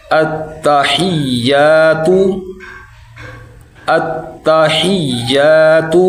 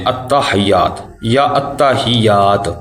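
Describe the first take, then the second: First: التحیات slow, with long doubled ee-y; correct recitation. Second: التحیات as ta-hayaat, then ta-hiyaat; wrong readings. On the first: Teacher correcting learners, التحیات slow with held middle. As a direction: chant التحیات as at-ta-hiyy-aa-tu. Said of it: "ہیات نہیں". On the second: Teacher showing common mistakes, التحیات spoken without the long ee. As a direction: say التحیات quickly with short middle vowel. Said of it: "ادھر بھی ہم غلطی اکثر کرتے". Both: Shown as a demonstration.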